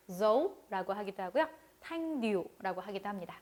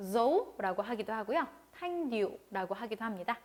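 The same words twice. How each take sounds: The two takes are said the same way.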